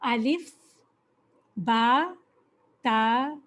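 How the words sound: The letter names end in an 'a' vowel. This is how Arabs read the letters. The speaker calls it right. "अरब कैसे पढ़ते हैं"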